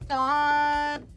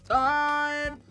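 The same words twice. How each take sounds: Both takes have the same delivery.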